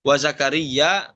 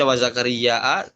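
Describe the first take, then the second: First: Said in the usual way. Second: WA ZAKARIA ending in a long a and glottal catch; read with hamzah. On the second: Shown as a demonstration. Teacher showing the variant reading, hamzah ending on ZAKARIA. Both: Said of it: "dibaca wa zakaria".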